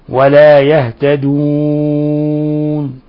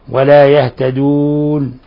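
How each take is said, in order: First: The final long vowel is held moderately, four counts. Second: The final long vowel is held briefly, two counts. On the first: "التوسط" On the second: "القصر"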